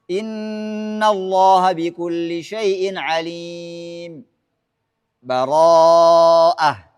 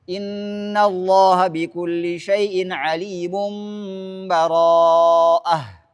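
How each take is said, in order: First: There is a brief halt before the last word. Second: Everything runs together with no break at all. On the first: "as-saktu, saktah" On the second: "Nyambung semuanya"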